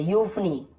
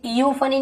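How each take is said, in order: First: यूफनी beginning with plain yu; correct यू onset. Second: यूफनी beginning ee-yu, like iyufani; wrong ईयू onset. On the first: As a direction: say यूफनी as yuf-nee, no leading ee. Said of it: "यू बस बोल रहे". (यूफनी में सिर्फ़ यू) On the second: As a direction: show the mistake, an extra ee before यूफनी. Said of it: "यूफनी नहीं बोल रहे". (यूफनी के आगे ई जोड़कर, गलत उच्चारण) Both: Shown as a demonstration.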